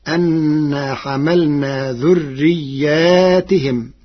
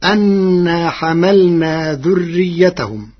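First: ذرياتهم as "dhurriyyātihim"; slow recitation, long ā then "-tihim" in ذرياتهم; plural with kasra. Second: ذريتهم as "dhurriyyatahum"; slow recitation, short "-yatahum" on ذريتهم; singular short ending. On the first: Teacher shows Warsh's plural reading, ذرياتهم with long ā and "-tihim". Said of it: "بالجمع مع كسر التاء والهاء". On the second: Teacher quotes the verse before Warsh's reading, ذريتهم as "dhurriyyatahum". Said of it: "كلمة ذريتهم". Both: Shown as a demonstration.

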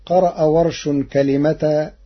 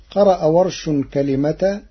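Both takes have the same delivery.

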